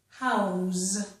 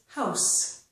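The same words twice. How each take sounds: First: The word ends with a voiced Z sound. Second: The word ends with a voiceless S sound. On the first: It is a verb meaning to give shelter. "As a verb, it's a Z sound" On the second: It is a noun meaning a dwelling. "As a noun, this is house. ... S"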